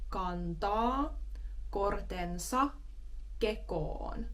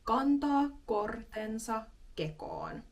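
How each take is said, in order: First: It is said a bit more slowly. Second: It is said at normal speed.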